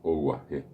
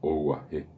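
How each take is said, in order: Both takes have the same delivery.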